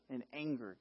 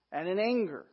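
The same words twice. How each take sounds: First: "anger" dropped low and soft; "anger" said lower and quieter; quiet, weighted anger. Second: "anger" said with a lift; "anger" given a raised, falling hit; stress on anger. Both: Shown as a demonstration. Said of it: "in anger, guys".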